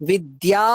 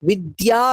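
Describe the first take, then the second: Both takes have the same delivery.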